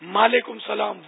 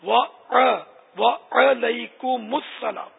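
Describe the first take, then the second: First: It starts with an m sound, no wa. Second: It starts with a clear wa sound. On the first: The speaker calls it wrong. "اچھا اب جواب بھی نہیں آتا" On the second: The speaker calls it right. "اسے پہلی بار سنا"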